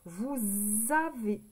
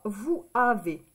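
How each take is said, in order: First: A z sound links vous to avez. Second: The s of vous stays silent before avez. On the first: The speaker calls it right. "on fait la liaison. On va dire plutôt vous avez" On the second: The speaker calls it wrong. "On ne dit pas vous avez. Ce n'est pas joli à l'oreille"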